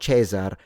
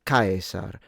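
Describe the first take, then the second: First: The word uses the later ecclesiastical Latin pronunciation. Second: The word uses the restored classical Latin pronunciation. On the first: This is the later church pronunciation, not the historical one. The speaker calls it wrong. "it's not Cesar" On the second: This is how it was said in its own time. The speaker calls it right. "it's Caesar in period"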